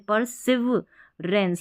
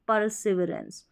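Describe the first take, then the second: First: The word is broken into separate syllable chunks. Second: The word is said smoothly as one unit. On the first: "पर सिव ऐसे पढ़ते" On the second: "तो परसिविरेंस साथ में पढ़ना है"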